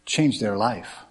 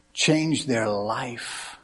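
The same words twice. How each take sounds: First: Said in the usual way. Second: Change their life drawn out very slowly, each word weighed; slow emphatic repeat. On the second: Real, not acted. Repeated sermon line.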